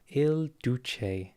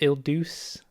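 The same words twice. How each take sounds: First: The name is said in an Italian way. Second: The name is said in an anglicized way. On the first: The speaker calls it right. "it's Il Duce" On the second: The speaker calls it wrong. "Not Il Duce. I said it wrong"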